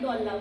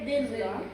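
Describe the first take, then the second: First: The first vowel is a rounded 'u' sound. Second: The first vowel is an unrounded 'i' sound. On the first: The speaker calls it wrong. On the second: The speaker calls it right.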